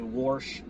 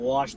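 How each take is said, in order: First: The word is said with an r sound. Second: The word is said without an r sound. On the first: "heavy Midwestern accent" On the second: "Instead of wash"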